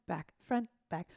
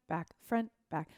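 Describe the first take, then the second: No difference in how they are said.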